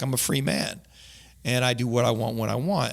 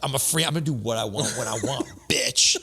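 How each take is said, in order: First: It is said as a calm, plain statement. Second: It is said in an aggressive, defiant tone.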